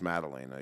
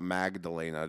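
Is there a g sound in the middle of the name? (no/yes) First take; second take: no; yes. First: No g sound is heard in the middle. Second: A g sound is heard in the middle. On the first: The speaker calls it right. "I learned to take the G out" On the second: The speaker calls it wrong. "not Magdalena"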